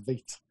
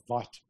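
First: Vite said as VEET; correct pronunciation. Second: Vite said as VYTE; common mispronunciation. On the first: Developer correcting co-host on the name, Vite as VEET. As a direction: say Vite to rhyme with feet. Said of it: "it's pronounced". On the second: Developer citing what many people say, Vite as VYTE. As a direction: say Vite to rhyme with bite. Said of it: "A lot of people say". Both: Shown as a demonstration.

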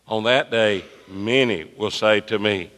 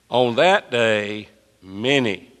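First: Said in the usual way. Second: Very slow, leaning on "many"; pointed slow scripture read; stress on many. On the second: Shown as a demonstration. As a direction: stretch it out and hit "many". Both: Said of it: "circle the word many, please".

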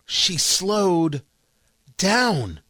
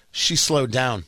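First: Spaced out, with a long pause before "down"; slow, deliberate emphasis. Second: Said in the usual way. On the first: Shown as a demonstration. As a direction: stretch "slowed", pause, then land "down". Repeats point, slowing it for emphasis.

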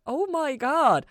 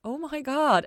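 First: Very slow, high, loud disbelief; slow drawn-out shock; stunned. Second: High, loud stunned gasp of words; high loud disbelief; shocked. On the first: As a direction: let it sink in slowly. Repeats, stunned. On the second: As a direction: hit by the realization. Ella stunned by revelation. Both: A narrator's reading.

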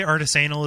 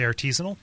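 First: "artisanal" said jokily with a long "ay"; joke pronunciation. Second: "artisanal" stressed on the second syllable; the straight "artisanal", no long "ay"; earnest pronunciation. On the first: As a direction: say "artisanal" as arti-SAY-nal. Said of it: "I say artisanal is a joke". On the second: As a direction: say "artisanal" as ar-TEE-zuh-nul. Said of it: "going to say it in earnest". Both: Shown as a demonstration.

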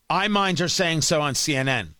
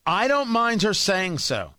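First: Mind punched, falling tune; stress on mind. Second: Don't leaned on, falling; stress on don't. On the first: Host clarifying his objection to listeners, stress on mind. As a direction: lean on the word mind, not don't. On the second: Host contrasting what he objects to, stress on don't. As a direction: hit the word don't hard to set up the contrast. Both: Shown as a demonstration.

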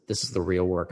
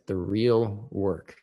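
First: Said in the usual way. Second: The real work, slowed right down with real leaned on hard; stress on real work. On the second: Shown as a demonstration. Host insisting on the point, "real" stressed slowly. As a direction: drag out "The real work" and land heavy on "real". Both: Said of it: "I like to say".

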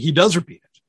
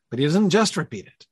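First: "does" punched louder; stress on DOES. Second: "just" stressed above the rest. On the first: Teacher conceding a point to the class, stress on "does". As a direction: lean hard on "does". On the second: Teacher qualifying the point for the class, stress on "just". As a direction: put the weight on "just". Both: Real, not acted. Corrects himself with contrastive stress.

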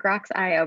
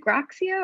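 First: "Grox I O" with I and O as separate letters; "Grox I O" pronounced grocks-eye-oh; Grox I O spelt out. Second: GROXIO said as a single blended name; "Groxio" pronounced GROCK-see-oh; Groxio as one word. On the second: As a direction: run GROXIO together, ending in "ee-oh". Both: Shown as a demonstration. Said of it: "we say it both ways".

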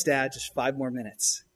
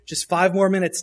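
First: Drawn-out, slower whiny plea; slow kid whine. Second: Put-on begging kid. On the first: Retold or imitated. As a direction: stretch it out like a sulking child. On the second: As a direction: plead like a kid who won't leave. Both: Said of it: "What do they say?".

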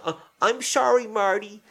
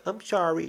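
First: Much higher, exaggerated kid's apology; mock-meaning it, pitched way up like a coerced child; forced sincere apology. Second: Mock kid's apology, high and small; grudging, token apology in a slurred kiddie voice; insincere apology. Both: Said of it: "say it like you mean it".

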